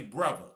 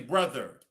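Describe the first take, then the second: First: It is said in a Baltimore accent. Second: It is said in a general American accent.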